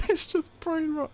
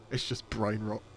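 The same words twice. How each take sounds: First: High-pitched, helpless laughing voice; cracking up. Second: Said in the usual way. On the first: Real, not acted. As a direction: squeeze the words out through laughter. Repeats it while cracking up.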